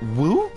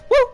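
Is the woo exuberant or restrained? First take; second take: restrained; exuberant. First: The woo is said with limited energy. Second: The woo is said with strong excited energy. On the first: The speaker calls it wrong. "That's as close as I can get. ... it's not the best" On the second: The speaker calls it right. "that was a closer woo"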